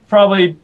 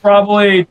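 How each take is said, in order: Both takes have the same delivery.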